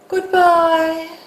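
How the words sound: It sounds heavy and final. They will never meet again. "as if you never thought you would meet that person again"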